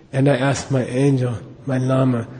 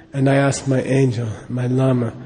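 The two takes are said the same way.

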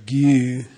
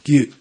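First: The vowel is drawn out noticeably long. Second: The vowel is clipped with a sudden throat closure. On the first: It means acquainted with. "Then one is longer" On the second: It means a lineage or stream. "one is cut short"

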